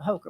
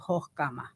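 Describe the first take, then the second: First: The name is said with English sounds throughout. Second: The name is said with a German guttural sound. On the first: This is the easiest way for most people. "Hokumer is is probably the easiest for people" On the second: This is how relatives in Germany say it. "the distant distant relatives in Germany pronounce it something to the effect of"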